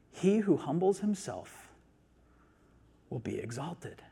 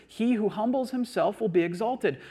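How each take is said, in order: First: Slow scripture reading with a long pause, dropping soft at the end; measured, hushed close on the verse; slow, deliberate quoting. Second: Verse restated in one flowing, raised-pitch sweep; higher, continuous delivery of the verse; emphatic restatement. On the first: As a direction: let each phrase land, then pause. Scripture quote, slow first reading. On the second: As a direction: repeat it with conviction, no pause. Repeats the verse as one sentence. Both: Shown as a demonstration.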